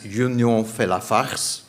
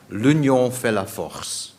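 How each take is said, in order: First: "Union fait la farce" said slowly, with "farce" in place of "force"; French pun. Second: "L'union fait la force" said in French, slowly, ending on "force"; French motto. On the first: [name] joking to the audience, "Union fait la farce" with "farce". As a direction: land the joke word "farce" where "force" belongs. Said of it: "That's something different". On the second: [name] reciting the Belgian motto in French, "L'union fait la force" with "force". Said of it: "For those of you who speak French". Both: Shown as a demonstration.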